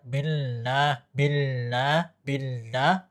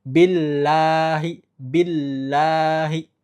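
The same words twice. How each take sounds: First: Billah with la humming through the nose; nasal billah. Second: Billahi slow, la clear with no nasal hum; clean billahi. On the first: Teacher showing the faulty nasal billah. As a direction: let billah buzz nasally on la. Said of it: "berarti masih ada gunnahnya". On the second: Teacher showing the correct billahi. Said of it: "lanya harus bersih". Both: Shown as a demonstration.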